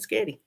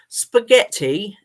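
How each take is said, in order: First: The word is clipped to two syllables. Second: The word is said with all three syllables. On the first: The speaker calls it wrong. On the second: The speaker calls it right.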